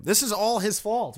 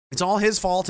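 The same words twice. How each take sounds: First: Slow "This is all his fault" with "all" drawn out high and falling; stress on all. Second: "it's all his fault" with "his" punched and falling; stress on his. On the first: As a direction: lean hard on "all", slowly. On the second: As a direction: hit the word "his". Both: Real, not acted.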